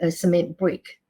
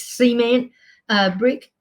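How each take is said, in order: First: It is said in the speaker's own non-American way. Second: It is said the American way.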